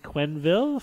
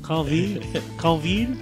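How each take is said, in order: First: The name is pronounced the English way. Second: The name is pronounced the French way.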